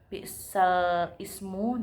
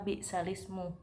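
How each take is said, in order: First: The words are said separately with a hamzah. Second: The words are linked with a kasrah on lam.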